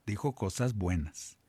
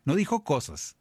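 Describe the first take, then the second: First: "buenas" weighted as the key word, set against plain "cosas"; stress on buenas. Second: Said in the usual way. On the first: Shown as a demonstration. Priest correcting the congregation's misreading, stressing "buenas". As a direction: lean on "buenas" to correct the quote.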